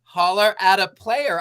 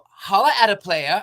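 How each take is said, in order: First: It is said in his own puzzled voice. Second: It is said in Kara's Valley girl voice.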